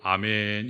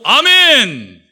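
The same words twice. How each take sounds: First: It is said on a low pitch. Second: It is said on a high pitch.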